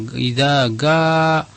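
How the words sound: The second word begins with a hard g sound. The speaker is Egyptian. "Kalau orang Mesir mengucapkan jim itu ga"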